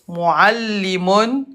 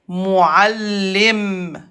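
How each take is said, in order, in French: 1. Le mot se termine par un son 'un' après le 'm'. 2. Le mot se termine sur un 'm' seul.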